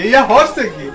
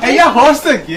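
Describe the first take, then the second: First: Said in the usual way. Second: Laughing mockery. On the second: Husband mocking his Sylheti wife's boast, laughing. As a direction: say এইয়া হরছে কি with a laugh breaking through.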